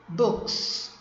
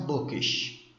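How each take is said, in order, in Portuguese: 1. A palavra termina com som de s. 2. A palavra termina com som de sh.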